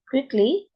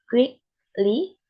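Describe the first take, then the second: First: Said in the usual way. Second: "quickly" split into quick and ly, both rising; syllable by syllable. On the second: Shown as a demonstration. Student showing pitch in an example word, syllable by syllable. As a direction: pause between the halves of "quickly".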